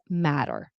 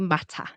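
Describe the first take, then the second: First: The middle T is a soft D-like flap. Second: The middle T is a crisp T. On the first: The speaker calls it right. "It's matter" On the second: The speaker calls it wrong. "You say matter"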